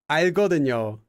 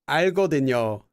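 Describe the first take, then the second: The two takes are said the same way.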